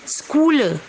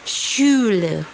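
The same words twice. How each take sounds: First: It begins with a harsh kh sound. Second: It begins with a sh sound. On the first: The speaker calls it wrong. "banyak orang membacanya Schule karena C H" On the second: The speaker calls it right. "dibaca seperti huruf shin"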